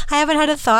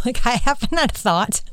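First: Squeaky laugh, words pitched high. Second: Laughing. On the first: Laughing repeat of the remark. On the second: Laughing at her own remark. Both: Real, not acted.

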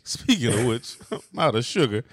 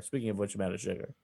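First: Laughing Rodney Dangerfield imitation; Dangerfield impression. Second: Rodney Dangerfield. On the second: Real, not acted. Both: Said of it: "that sound very Dangerfieldy to me".

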